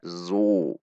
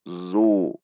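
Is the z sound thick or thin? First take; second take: thin; thin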